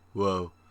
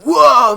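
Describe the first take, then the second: First: It sounds flat and bored. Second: It sounds excited and amazed.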